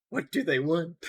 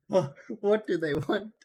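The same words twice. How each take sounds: First: Said in the usual way. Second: "What" drawn out slowly with a rising end; slow mock plea. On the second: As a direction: plead slowly like a scared victim.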